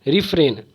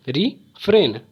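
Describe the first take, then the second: First: Said in the usual way. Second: "refrain" in two beats, रि, pause, फ्रेन; split into syllables. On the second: Shown as a demonstration. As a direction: pause inside "refrain" after रि. ("Refrain" को रि और फ्रेन में तोड़कर) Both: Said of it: "हम लोग पढ़ेंगे इसे".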